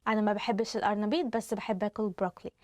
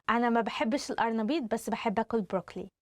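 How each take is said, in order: The two takes are said the same way.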